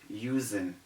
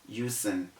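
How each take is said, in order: The two takes are said the same way.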